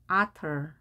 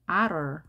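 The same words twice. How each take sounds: First: Otter with a fully released T; crisp T. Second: Otter with T softened to an R-like flap; American flapped T. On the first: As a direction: sound the T clearly in otter. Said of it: "양쪽에 모음이 있습니다". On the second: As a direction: say otter American-style, like ah-rer. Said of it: "T가 양쪽에 모음이 있게 되면 R 발음". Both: Shown as a demonstration.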